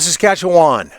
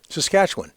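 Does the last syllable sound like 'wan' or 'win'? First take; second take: wan; win. First: The last syllable sounds like 'wan'. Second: The last syllable sounds like 'win'. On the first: The speaker calls it wrong. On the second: The speaker calls it right. "Almost like it's W I N"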